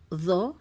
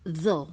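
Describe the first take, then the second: First: The tongue sticks out and the sound is heavy. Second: The tongue sticks out and the sound is heavy.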